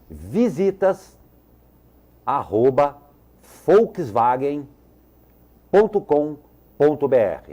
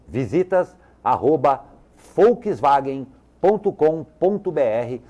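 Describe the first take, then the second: First: It is read very slowly. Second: It is read quickly. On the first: "Vou falar bem devagar" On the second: "Vou falar mais uma vez rapidinho"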